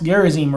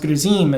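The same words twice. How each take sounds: First: The name is said with an English pronunciation. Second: The name is said with a Samaritan pronunciation.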